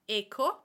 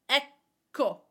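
First: The middle consonant is short, with no hold. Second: The middle consonant is held, almost a pause. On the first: The speaker calls it wrong. "So it is not echo" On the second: The speaker calls it right. "it's like we're almost pausing between the two consonants"

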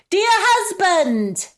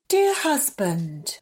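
First: It is said in a shrill voice. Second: It is said in a soft voice.

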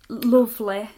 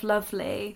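First: The first vowel sounds like the vowel in foot. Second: The first vowel sounds like the vowel in strut. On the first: The speaker is from the north of England. "lovely instead of lovely" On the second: The speaker is from the south of England. "instead of lovely"

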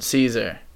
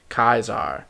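First: The name is said the usual English way. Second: The name is said like German 'Kaiser'. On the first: "in English we pronounce it Caesar" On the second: "the German Kaiser, and the Russian Tsar all come from the name, like, Kaiser"

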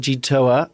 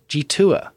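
First: The middle syllable does not sound like 'two'. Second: The middle syllable sounds like the word 'two'. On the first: The speaker calls it wrong. "No, I've said it wrong again" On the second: The speaker calls it right. "like the number two"

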